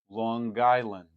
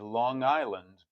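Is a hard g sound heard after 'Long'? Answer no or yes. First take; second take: yes; no. First: A hard g sound follows the ng. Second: The ng ends without a hard g sound.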